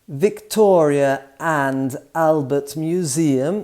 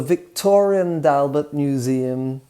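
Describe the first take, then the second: First: The words are said separately without added sounds. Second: An R is added and the D links forward.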